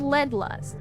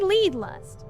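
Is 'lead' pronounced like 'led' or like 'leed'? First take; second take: led; leed. First: Lead is said with a short e vowel. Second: Lead is said with a long ee vowel. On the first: It refers to the heavy metal. "referring to the heavy metal" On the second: It means being ahead in lust. "they are leading in lust"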